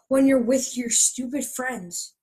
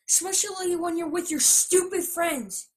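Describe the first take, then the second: First: It is said without anger. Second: It is shouted angrily.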